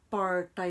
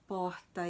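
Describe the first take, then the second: First: The R is retroflex. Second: The R is neither trilled nor retroflex. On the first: This R is socially stigmatized. "é o R estigmatizado" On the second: This R carries social prestige. "é o R é, de prestígio"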